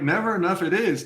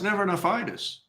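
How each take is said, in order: First: The ending is said as two words, 'it is'. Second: The ending is said as one suffix, 'itis'. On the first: It states that it is never enough. "That works too" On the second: Never enough is named as a disease. "no, it's never enough itis"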